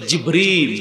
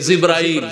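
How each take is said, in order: First: The name ends in 'il'. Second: The name ends in 'ail'. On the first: The speaker calls it right. "শব্দটা হলে জিবরিল" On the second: The speaker calls it wrong. "আমরা বলি"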